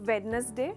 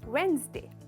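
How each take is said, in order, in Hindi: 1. यह शब्द तीन सिलेबल में बोला जाता है। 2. यह शब्द दो सिलेबल में बोला जाता है। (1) "जनरली कहते हैं हम वेडनेसडे" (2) "करेक्ट प्रोनाउंसिएशन है वेंसडे। सिर्फ दो भाग है"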